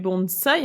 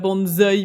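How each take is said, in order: First: The middle consonant is a hissing s sound. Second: The middle consonant is a buzzing z sound. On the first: The speaker calls it right. "mais bonsaï, il n'y a pas de Z en japonais" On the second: The speaker calls it wrong. "on ne dit pas bonsaï"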